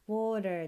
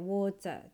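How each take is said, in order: First: The middle t is a soft flap, American style. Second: The middle t is clearly pronounced, British style. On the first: "ではなくて" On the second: "イギリス英語ではですね、T をしっかり発音する"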